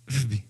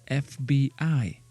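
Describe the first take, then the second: First: The letters are run together as one word. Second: Each letter is said separately. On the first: "It will be F B, F B, F B, or something like that. So that's ridiculous" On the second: "can I say those three letters as a word?"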